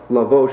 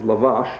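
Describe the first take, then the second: First: The second vowel sounds like 'oh'. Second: The second vowel sounds like 'ah'. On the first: The speaker calls it wrong. "I've been mispronouncing it all these years" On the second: The speaker calls it right. "I was corrected upon"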